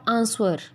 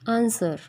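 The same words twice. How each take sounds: First: A w sound is heard in the middle. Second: No w sound is heard in the middle. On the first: The speaker calls it wrong. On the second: The speaker calls it right.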